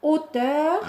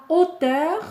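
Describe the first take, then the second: The two takes are said the same way.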